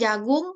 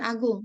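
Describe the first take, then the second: First: The word begins with a j consonant. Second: The word begins with a vowel sound. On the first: The speaker calls it right. "ini jagung" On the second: The speaker calls it wrong. "bukan agung"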